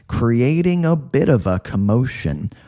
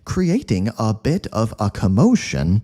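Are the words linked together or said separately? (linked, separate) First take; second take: linked; separate. First: The words run quickly together without breaks. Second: Each word is said separately and distinctly. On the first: The speaker calls it right. "We would say" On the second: The speaker calls it wrong. "we wouldn't say, ... That would sound too robotic"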